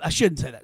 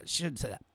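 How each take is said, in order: First: Said in the usual way. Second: Much softer repeat. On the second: Real, not acted. Host catching himself mid-rant, repeating much softer to himself. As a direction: say it again almost under your breath, much softer.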